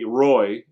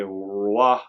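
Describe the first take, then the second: First: The name is said with an English accent. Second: The name is said with a partly French accent. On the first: "be really English" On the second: "be a little bit English"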